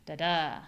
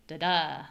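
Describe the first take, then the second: No difference in how they are said.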